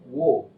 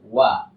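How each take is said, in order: First: The sound is thick with a rounded vowel. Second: The sound is thin with an open vowel. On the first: The speaker calls it wrong. "jangan pernah membaca wo" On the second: The speaker calls it right. "huruf waw itu tipis"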